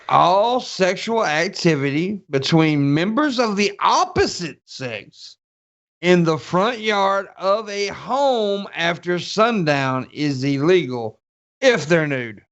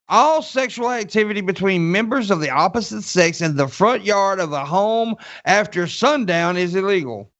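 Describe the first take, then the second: First: It is read slowly and deliberately. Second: It is read at normal, quicker speed.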